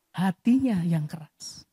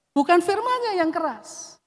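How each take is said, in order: First: "hatinya" dropped low, slow and weighty; slow, low emphasis on "hatinya"; stress on hatinya. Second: "firman-Nya" lifted high and pressed; stress on firman-Nya. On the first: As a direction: land hard on "hatinya", slowly. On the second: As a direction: point at "firman-Nya" as the wrong culprit. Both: Shown as a demonstration.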